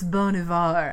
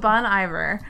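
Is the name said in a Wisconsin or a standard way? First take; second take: standard; Wisconsin. First: The name is said with the standard pronunciation. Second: The name is said with a Wisconsin dialect pronunciation. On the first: The speaker calls it right. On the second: The speaker calls it wrong.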